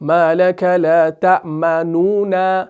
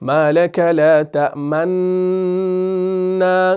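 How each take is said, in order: First: The two n sounds are separated by a u vowel. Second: The two n sounds merge into one doubled n. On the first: "तो ये खालिस इजहार हो जाएगा" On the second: "कोई अगर इदगाम करेगा जैसे"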